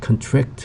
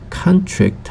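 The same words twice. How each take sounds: First: The stress is on the second syllable. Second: The stress is on the first syllable. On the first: It is a verb. "강세가 뒤에 가면 contract 하면은 동사가 되겠죠" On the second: It is a noun meaning an agreement. "강세가 앞에 있을 때는 contract 하면서 명사가 되겠고요"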